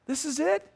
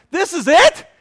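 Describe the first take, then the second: First: High rising question without added volume; mocking taunt. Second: High, loud, rising disbelief; incredulous outburst. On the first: The enemy sneaks in to belittle a believer, mocking. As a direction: needle them with a raised-pitch question. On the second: Retold or imitated. Preacher replays his complaint to his counselor, loudly incredulous. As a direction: nearly shout the question, appalled.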